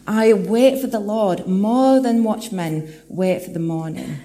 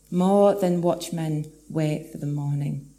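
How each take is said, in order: First: Louder, slow, swelling preacher's proclamation; slow building proclamation; proclaimed verse. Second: Gentle slow echo of the verse. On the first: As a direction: lift the verse up to the congregation. Psalm verse proclaimed, then echoed. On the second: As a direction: let the line settle back down, thoughtfully. Repeats verse line softly after proclaiming. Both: Acted.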